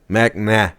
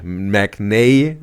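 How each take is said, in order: First: The last vowel sounds like ah. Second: The last vowel sounds like ay. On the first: The speaker calls it right. "Mac nah, not nay" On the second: The speaker calls it wrong. "Mac nay wrong"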